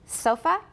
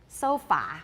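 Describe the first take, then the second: First: The last vowel is a short weak schwa. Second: The last vowel is a full open 'ah'. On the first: The speaker calls it right. "it occurs at the ends of words like" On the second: The speaker calls it wrong. "I thought it was"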